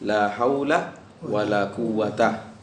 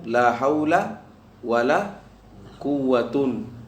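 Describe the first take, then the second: First: The last word ends in a short a. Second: The last word ends in un. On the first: "Al-fathu berarti bisa bilang"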